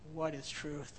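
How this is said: The question is asked in a discouraged tone. The asker believes truth can never be found. "Did he say it discouraged, like we'll never find out what truth is?"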